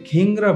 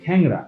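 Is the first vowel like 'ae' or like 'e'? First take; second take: e; ae. First: The first vowel sounds like 'e'. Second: The first vowel sounds like 'ae'. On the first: The speaker calls it wrong. "বলি না" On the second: The speaker calls it right. "আমরা এটাকে বলি"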